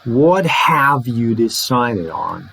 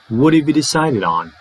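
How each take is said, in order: First: The word have is said fully, not reduced. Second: The word have is reduced to a short weak form. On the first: The speaker calls it wrong. "it's not" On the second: The speaker calls it right. "It's very short"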